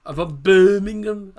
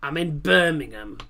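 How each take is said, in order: First: Put-on slow, louder try at a Brummie accent, half-joking; mock Brummie accent. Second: Said in the usual way. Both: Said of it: "I definitely can't do a Brummie accent".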